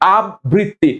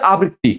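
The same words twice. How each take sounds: First: The b sound is doubled, like abbritti. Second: The b sound is single, like abritti. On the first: The speaker calls it wrong. "আমরা অনেকে বলি কি আবৃত্তি, আবৃত্তি, এটা ভুল" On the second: The speaker calls it right. "ব্রি একবার যাবে, আব্রি হবে না, ডাবল ব হবে না, একটা ব হবে"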